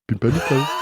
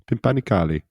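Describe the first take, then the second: First: It is said with an attempted French accent. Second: It is said with an Italian-sounding accent. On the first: "I can say it in a French accent" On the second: "It sounded like an Italian accent there"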